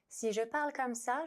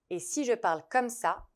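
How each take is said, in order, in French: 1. C'est dit en voix de tête, plus aiguë. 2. C'est dit en voix de poitrine, plus grave. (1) "je suis en voix de tête" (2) "je suis en voix de poitrine"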